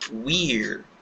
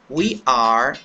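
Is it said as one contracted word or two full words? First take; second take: contracted; two words. First: It is said as one short contracted word. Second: It is said as two separate full words.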